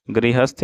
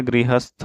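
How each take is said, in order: First: गृहस्थ said as grihasty; wrong ty ending. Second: गृहस्थ said as grihasth; aspirated th ending. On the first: Teacher showing the mistake, गृहस्थ ending in sty. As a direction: end गृहस्थ on t plus y. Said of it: "गृहस्थ नहीं होता है". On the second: Teacher correcting the word, गृहस्थ with sth ending. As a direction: puff the th of गृहस्थ. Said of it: "गृहस्थ होता है". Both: Shown as a demonstration.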